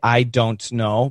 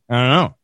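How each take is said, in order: First: Every word is pronounced fully and carefully. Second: The words are squeezed together even more heavily. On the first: The speaker calls it wrong. "They want to say, ... nobody says that" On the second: The speaker calls it right. "And sometimes we even say"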